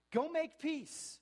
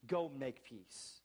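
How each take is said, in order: First: Much higher and louder, slow preaching cry; ringing slow shout on make; full-voice shout. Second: Said in the usual way. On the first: Real, not acted. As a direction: throw it to the back pews. Repeated exhortation, climax.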